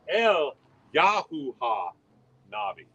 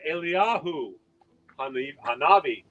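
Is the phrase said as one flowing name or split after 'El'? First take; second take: split; one name. First: The phrase is broken up with a break after El. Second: The phrase flows as one name without breaks. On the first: It hides God's name inside the phrase. The speaker calls it right. "Rather say it as El Yahuha Navi" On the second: It names the prophet Elijah. The speaker calls it wrong. "Say it not as Eliyahu Hanavi"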